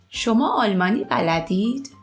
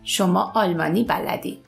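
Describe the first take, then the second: First: It is said with question intonation. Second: It is said with statement intonation.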